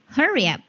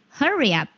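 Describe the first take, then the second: No difference in how they are said.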